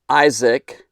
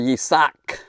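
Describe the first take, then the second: First: The name is said the familiar English way. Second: The name is said an unfamiliar, non-English way.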